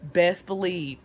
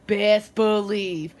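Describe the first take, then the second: First: Said in the usual way. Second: Best believe slowed, louder, each word leaned on; slow emphatic Best believe; drawn-out emphasis. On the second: Acted. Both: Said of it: "repeated with emphasis".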